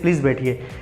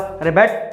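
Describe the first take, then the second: First: It is said politely and respectfully. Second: It is said harshly, scolding.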